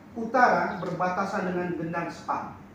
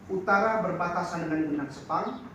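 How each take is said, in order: The two takes are said the same way.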